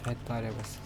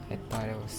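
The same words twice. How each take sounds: The two takes are said the same way.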